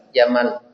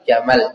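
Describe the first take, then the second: First: The vowel after the m is held long. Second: The vowel after the m is kept short. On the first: It means beauty. "Tambah satu harakat lagi" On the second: It means camel. "Kurangi satu harakat lagi"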